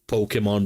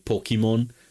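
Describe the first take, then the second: First: The name is said the usual non-Hebrew way. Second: The name is said with a Hebrew pronunciation.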